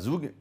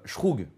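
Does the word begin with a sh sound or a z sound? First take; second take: z; sh. First: The word begins with a z sound. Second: The word begins with a sh sound. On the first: The speaker calls it wrong. "ça se prononce pas zoug" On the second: The speaker calls it right. "mais plutôt euh, shroug ou quelque chose comme ça"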